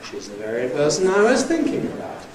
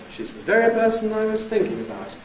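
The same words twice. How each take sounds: First: Pitch climbs gradually, then makes a long jump. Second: Pitch jumps suddenly high on 'very', then drops. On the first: "The rising head on the other hand with the long jump" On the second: "High drop, ... A sudden jump up to very"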